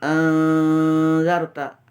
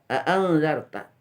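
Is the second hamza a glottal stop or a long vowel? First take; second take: long vowel; glottal stop. First: The second hamza becomes a long vowel. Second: The second hamza is a clear glottal stop. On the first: "itu diganti alifnya" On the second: "ditahqiq hamzahnya"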